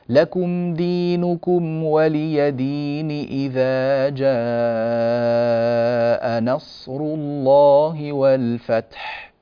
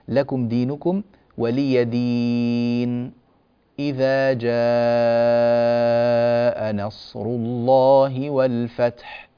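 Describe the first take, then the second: First: The two verses run straight on without a break. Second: A brief breathless silence separates the two verses. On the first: "أن يصل القارئ السورة المنقضية بالسورة التالية مباشرة دون بسملة" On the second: "أن يأتي بالسكت بين السورتين، والسكت يكون من غير تنفس"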